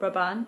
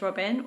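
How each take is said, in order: First: The name is pronounced with French sounds. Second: The name is pronounced with English sounds. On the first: The speaker calls it right. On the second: The speaker calls it wrong.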